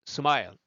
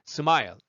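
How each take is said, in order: Both takes have the same delivery.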